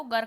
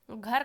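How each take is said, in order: First: गर with a plain g, no breath; lost aspiration. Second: Said in the usual way. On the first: Shown as a demonstration. Teacher showing the error, गर with unaspirated g. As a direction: take the h out: गर, not "ghar". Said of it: "महाप्राण को अल्प प्राण कर देना". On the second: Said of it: "महाप्राण को अल्प प्राण".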